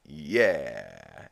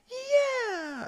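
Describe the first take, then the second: First: Low, falling mock cheer; cheer from the dirt. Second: Very high, drawn-out cheer; exultant whoop. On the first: Peter embedded in the dirt, sinking mock cheer. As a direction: let the "yeah" sink downward. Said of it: "embedded in the dirt, you just hear him". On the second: Retold or imitated. Peter still cheering after Falkor crashes, exultant whoop. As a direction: whoop "yeah" at the top of your range.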